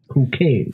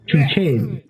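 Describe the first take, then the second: First: The name is pronounced as in the Czech language. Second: The name is pronounced as an English reader would.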